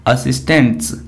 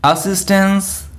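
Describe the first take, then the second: First: "असिस्टेंट्स" said lower with a falling end and a clear final ts; teacher contrasting "असिस्टेंट्स" with its look-alike; model pronunciation. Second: "असिस्टेंस" said slowly with a rising end; teacher sounding out "असिस्टेंस" for the class; model pronunciation. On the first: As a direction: set "असिस्टेंट्स" against the first word, dropping the pitch. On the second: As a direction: say "असिस्टेंस" clearly, ending on a lift. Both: Shown as a demonstration. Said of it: "confusing word".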